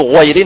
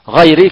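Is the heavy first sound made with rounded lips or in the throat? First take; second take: rounded lips; throat. First: The first sound is darkened by rounding the lips. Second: The first sound is darkened deep in the throat. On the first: The speaker calls it wrong. "لا نقول غيري" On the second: The speaker calls it right. "نقول غا غيري في مخرج الحرف"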